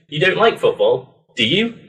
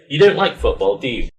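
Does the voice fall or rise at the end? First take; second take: rise; fall. First: The voice rises at the end. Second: The voice falls at the end.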